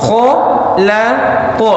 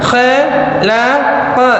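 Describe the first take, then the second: First: The syllables are said with a thick, heavy sound. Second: The syllables are said with a thin, light sound. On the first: The speaker calls it right. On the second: The speaker calls it wrong.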